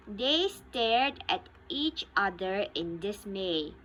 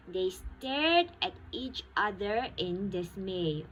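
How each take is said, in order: Both takes have the same delivery.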